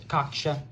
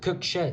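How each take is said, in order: First: The first vowel sounds like the vowel in 'cock'. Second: The first vowel sounds like the vowel in 'cook'. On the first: The speaker calls it right. "It's Cocksha" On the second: The speaker calls it wrong. "I mispronounced the word uh, Cocksha. I pronounced it Cooksha"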